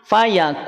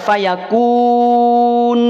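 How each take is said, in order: First: The lips are pulled back, making the n sound light. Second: The lips stay rounded, making the n sound heavy. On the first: The speaker calls it right. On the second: The speaker calls it wrong. "tidak dibaca fayakun"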